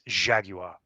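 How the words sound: Jaguar is said with a British pronunciation. The speaker calls it right. "It's Jaguar, like they say in the commercials for the car"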